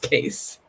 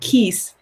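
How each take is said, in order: First: The vowel is an 'ay' sound. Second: The vowel is a long 'ee' sound. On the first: The speaker calls it right. "So I'm going to tell you it's Case" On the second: The speaker calls it wrong. "everyone was saying Keese because Keisha"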